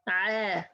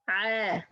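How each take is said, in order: No difference in how they are said.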